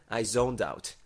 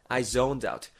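No difference in how they are said.

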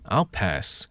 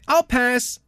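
First: It is said flatly and curtly. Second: It is said brightly and playfully.

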